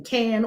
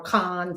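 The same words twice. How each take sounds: First: Cannes with the short "a" of "cat"; Cannes rhyming with "can". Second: Cannes with an open "ah" vowel; Cannes rhyming with "con". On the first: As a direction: say Cannes just like the word "can". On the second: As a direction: say Cannes as "kahn". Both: Shown as a demonstration. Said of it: "depending on how you say it".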